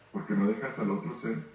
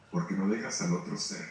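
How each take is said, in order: Both takes have the same delivery.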